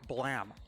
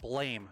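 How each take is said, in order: First: The vowel is a short 'a' sound. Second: The vowel is a long 'ay' sound. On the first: The title is meant as a sound effect. "imply it's pronounced blam" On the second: This is the ordinary English reading of the word. "In English, this would be pronounced blame"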